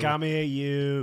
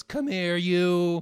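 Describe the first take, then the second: First: Slow, drawn-out, higher, louder; menacing chef calling a cook over; Gordon Ramsay impression. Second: Barked, louder and higher; angry summons. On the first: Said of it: "He always says". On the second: Retold or imitated. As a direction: call the waiter over in a rage. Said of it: "when he goes".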